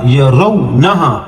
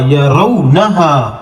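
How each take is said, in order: First: یا رو نہا with the waw not stretched; quick lin waw. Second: یا رو نہا slow overall, waw short; quick lin waw. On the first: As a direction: read رو quickly, no drawing out. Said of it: "واو لین کا ہے، جلدی سے پڑھ کے". (یا رو نہا میں واو جلدی سے) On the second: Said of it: "لین کا قاعدہ لاگو ہوگا". (یا رو نہا میں واو لین، کھینچیں نہیں) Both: Shown as a demonstration.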